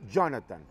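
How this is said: The name is said with an English-like pronunciation. "Ya muy aquí americanizado"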